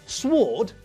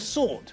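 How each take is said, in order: First: The W sound is pronounced in sword. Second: The W sound is silent in sword. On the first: The speaker calls it wrong. "doesn't carry a" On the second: The speaker calls it right. "he carries a"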